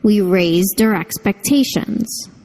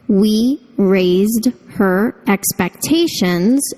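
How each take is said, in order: First: The h in 'her' is dropped and linked. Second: The h in 'her' is clearly pronounced.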